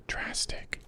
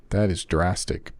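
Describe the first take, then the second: First: Breathy whispered echo of "Drastic"; hushed aside. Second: Said in the usual way. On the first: Real, not acted. Repeats word, then whispers it.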